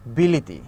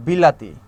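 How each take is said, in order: First: বিলিতি said with i vowels, lower; the vowel shifts to i in বিলিতি. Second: বিলাতি said clearly, full a vowels; বিলাতি with open a sounds, louder. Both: Shown as a demonstration. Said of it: "কেউ বলি".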